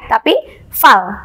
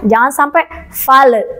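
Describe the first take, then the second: First: The final consonant is held firmly with no release. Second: The final consonant is released with a bounce. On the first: The speaker calls it right. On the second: The speaker calls it wrong. "jangan sampai"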